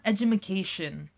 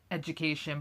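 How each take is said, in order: First: An extra 'ma' syllable is added in the middle. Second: The word is said with no extra syllable. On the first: This mimics a family member's joking pronunciation. The speaker calls it wrong. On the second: This is the usual pronunciation. The speaker calls it right.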